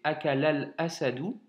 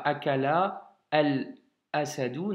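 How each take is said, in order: First: "akalal asadou" run together, the lam linked to "asadou"; with liaison. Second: "akala al asadou" split apart, no liaison between the words; wrong reading with a pause at "al"; without liaison. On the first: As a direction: join "akalal asadou" smoothly as one flow. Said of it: "non, c'est akalal asadou". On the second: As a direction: say "akala al asadou" as separate words, breaking the link. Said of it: "c'est pas akala al asadou". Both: Shown as a demonstration.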